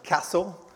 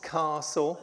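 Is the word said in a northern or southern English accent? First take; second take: northern; southern. First: It is said in a northern Yorkshire accent. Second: It is said in a southern English accent. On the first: "I used to say Bath and Castle" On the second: "sir, it's Bath, it's Castle"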